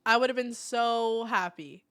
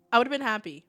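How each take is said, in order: First: Slow and longing; wistful, slow. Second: Said in the usual way. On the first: Real, not acted. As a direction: draw it out wistfully.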